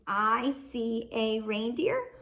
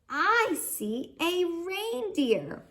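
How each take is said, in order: First: It is said flatly, without excitement. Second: It is said with excited expression.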